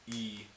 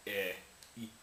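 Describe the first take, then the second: First: E held longer; long vowel. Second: E cut short; short vowel. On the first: Showing what the dots mean, lengthened E. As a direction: draw E out as a pure vowel. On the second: Contrasting vowel lengths for viewers, short E. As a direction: say E as a brief pure vowel. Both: Shown as a demonstration. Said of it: "they're long vowels".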